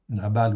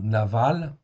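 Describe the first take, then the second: First: The middle consonant is a b sound. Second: The middle consonant is a v sound. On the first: "Nabal ou Naval" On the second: "on prononce souvent Naval"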